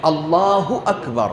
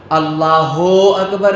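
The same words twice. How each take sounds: First: Slow, اللہ ending in short "hu"; correct vowel. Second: اللہ ending in a long "ho"; wrong vowel. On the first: Teacher correcting callers to prayer, correct "hu". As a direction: say اللہ as "Allaahu", long middle vowel. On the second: Teacher warning callers to prayer, wrong "ho". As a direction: say اللہ as "Allaahoo" with an "oh". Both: Shown as a demonstration. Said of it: "نہیں ہے".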